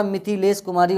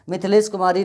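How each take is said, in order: First: मिथिलेश Kumari starting "mi-thi-les"; sounded middle i. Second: मिथिलेश Kumari starting "mith-les"; dropped middle i. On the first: Teacher correcting students, मिथिलेश Kumari with clear thi. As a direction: say मिथिलेश Kumari with both i vowels. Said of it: "होता है". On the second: Teacher showing the mistake, clipped-vowel मिथिलेश Kumari. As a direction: say मिथिलेश Kumari without the second i. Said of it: "नहीं होता". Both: Shown as a demonstration.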